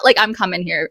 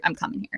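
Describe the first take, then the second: First: Said in the usual way. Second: I'm coming here repeated much softer; quiet echo. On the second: Retold or imitated. Repeating the decision to herself, much softer.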